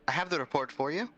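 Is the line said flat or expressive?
expressive. It is said with expressive, varied intonation.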